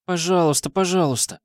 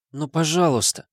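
First: Put-on high whiny childish begging. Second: High pleading plea. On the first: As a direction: wheedle like a little kid. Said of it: "заклянчила жалобным голосом". (жалобное детское клянченье) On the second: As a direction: beg sweetly, higher. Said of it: "умоляюще заглянула". (умоляющая просьба) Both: A narrator's reading.

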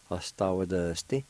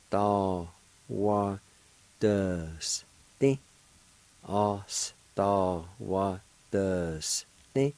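First: Said in the usual way. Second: Ostawadusty stretched out very slowly; very slow pronunciation. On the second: Shown as a demonstration. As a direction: drag Ostawadusty out for the learner. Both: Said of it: "it's pronounced like this".

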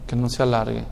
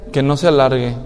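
First: Much softer, lower echo; almost inaudible. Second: Said in the usual way. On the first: Real, not acted. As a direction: let the repeat fall to a hush. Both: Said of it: "repeated phrase".

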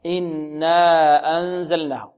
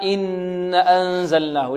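First: إنا أنزلناه with held nasal n and a long final a in إنا; long alif. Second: إن أنزلناه with a held nasal n and a short a after it; missing long alif. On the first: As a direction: slowly hold the n, then stretch the alif of إنا. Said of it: "لا بد من مد الألف". (إنا أنزلناه بغنة ومد الألف حركتين) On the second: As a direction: hum the n of إن, then go straight into أنزلناه. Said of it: "لعل البعض يقرأها". (غنة في إن ثم أنزلناه دون مد الألف) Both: Shown as a demonstration.

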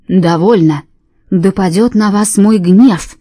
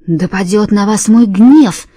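First: Louder, slow booming wrath; a hint of booming divine anger; wrathful God. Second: Louder, slow, with гнев hit hard; fierce booming curse. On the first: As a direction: thunder down the curse. God's wrath proclaimed. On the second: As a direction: growl the curse slowly, fierce. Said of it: "свирепым голосом повторила Ханна". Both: A narrator's reading.

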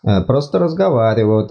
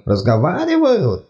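First: Said in the usual way. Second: Slow, higher disbelieving echo; incredulous. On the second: Acted. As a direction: repeat it in disbelief.

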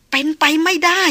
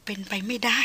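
First: Louder, higher cry of disbelief; raised voice climbing at the end; rising disbelief. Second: Softly murmured to herself in disbelief; dazed murmur. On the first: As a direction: push it up into a protest. Disbelief mounts after the murmur. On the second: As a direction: murmur it absently, barely addressing anyone. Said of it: "ดารินพึมพำออกมา". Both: A narrator's reading.

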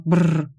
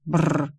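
First: Trilled lip shudder; shuddering brr. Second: Short trilled shudder, less forceful; echoed brr. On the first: Acted. Client recoiling from mathematics, shuddering brr. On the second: A narrator's reading. Narrator echoing the client's shudder, brr. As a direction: echo the shudder sound. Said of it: "повторила я".

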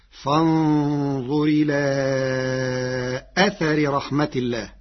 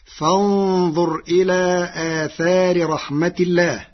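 First: أثر recited "athari", both a's short; long إلى, then a short quick أثر; singular without alifs. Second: آثار recited "aathaari", both a's long; higher-pitched recitation, آثار with two long vowels; plural with alifs. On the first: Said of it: "بلا ألف بعد الهمزة والثاء". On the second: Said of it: "قرأ ورش كلمة آثار". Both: Shown as a demonstration.

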